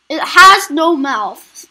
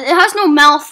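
First: It has no mouth, slow and loud with has stressed; slow emphatic repeat. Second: Said in the usual way. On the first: Shown as a demonstration.

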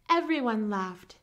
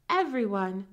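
First: Said in the usual way. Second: Everyone said louder and set apart; stress on Everyone. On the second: A narrator's reading. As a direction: lean hard into Everyone. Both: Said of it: "repeat for emphasis".

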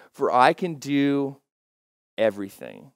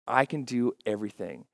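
First: Slow, deliberate verse reading. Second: Said in the usual way. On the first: Shown as a demonstration. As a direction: let each word sink in slowly. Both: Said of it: "I like to read it a little bit slower".

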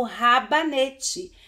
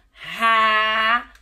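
First: Said in the usual way. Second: "rabanete" loud, long ra... ba... ne... te; syllable by syllable. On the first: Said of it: "Quando eu falo ra". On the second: Shown as a demonstration. Teacher showing pupils an unfamiliar word, syllable by syllable. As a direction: stretch and separate each syllable of "rabanete". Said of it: "eu não contei as sílabas".

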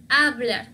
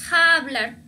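First: Hablar starting cleanly on a, "ablar"; silent H. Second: Hablar slow with a raspy kh-like h; sounded H, wrong. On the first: Teacher gives the correct form, hablar with silent H. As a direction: keep the h of hablar mute. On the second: Teacher shows the badly said form, hablar with H. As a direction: drag out an audible h on hablar. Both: Shown as a demonstration. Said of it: "Mal dicho".

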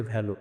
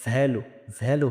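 First: ভ্যালু with a Bengali bh; quick "bh" in place of v in ভ্যালু; wrong V sound. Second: ভ্যালু opened with a held buzzing v; correct V sound. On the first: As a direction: lips together, breathy b opening ভ্যালু. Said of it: "ভুল উচ্চারণ". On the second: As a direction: teeth on lip to start ভ্যালু. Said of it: "ভি যদি সঠিক উচ্চারণ করতে পারি". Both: Shown as a demonstration.

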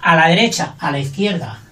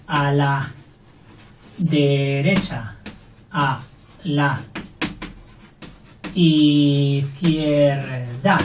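First: Said in the usual way. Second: A la derecha, a la izquierda said very slowly with pauses; a slow, stretched-out derecha and izquierda; slow dictation. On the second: Shown as a demonstration. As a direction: dictate word by word. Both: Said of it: "lo mismo".

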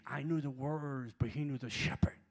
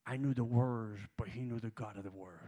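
First: Shouted refrain of the line; preaching repeat. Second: Loud, emphatic quote of the actor; preaching the actor's words loud; rising preacher fervor. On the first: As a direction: drive the point home harder. Same line repeated louder. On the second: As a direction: lean into it with growing fire. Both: Retold or imitated.

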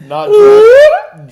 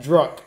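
First: Put-on "drunk" shouted high and loud; "not drunk" with "drunk" yelled out loud. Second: Said in the usual way. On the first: Shown as a demonstration.

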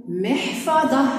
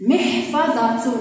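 First: محفظة said as "mihfadhah"; محفظة with no "-tun", ending "-ah"; pausal ha ending. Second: محفظة said slowly as "mihfadhatun"; teacher's measured محفظة ending in "-tun"; full case ending. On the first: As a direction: stop on a final h in محفظة. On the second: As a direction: sound the final t and "un" in محفظة. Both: Shown as a demonstration. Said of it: "صح الوقوف عليها".

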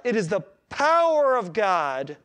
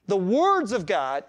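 First: "power" stretched out with force; slow down and punch "power"; stress on POWER. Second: "words" leaned on slowly; slow down and hit "words"; stress on WORDS. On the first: Preacher declaring what the gospel is, stressing "power". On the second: Preacher saying it isn't just words, stressing "words". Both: Real, not acted. Contrasting words with power of God.

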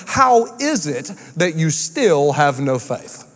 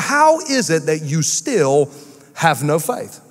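First: Slow, weighty Bible quote with HOW leaned on; slow solemn reading. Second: "How" stretched slowly, "have no faith" dropping low; slow rebuke. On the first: Pastor reading Jesus' rebuke to the disciples, slow and weighty. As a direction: read the verse slowly, leaning on "How". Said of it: "another translation says it this way". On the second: Jesus asking the frightened disciples, slow and searching. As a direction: drag out "How is it that you still", then fall on "faith". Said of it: "Jesus rebuking disciples". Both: Shown as a demonstration.

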